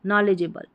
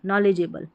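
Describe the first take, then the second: Both takes have the same delivery.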